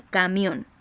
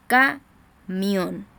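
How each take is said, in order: First: Said in the usual way. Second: "Camión" split as CA, pause, MIÓN; syllable-by-syllable stress. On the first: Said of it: "La voz se carga". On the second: Shown as a demonstration. Teacher separating syllables for pupils, slow "Camión" in two parts. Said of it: "en la última sílaba".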